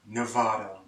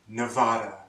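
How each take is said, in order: The two takes are said the same way.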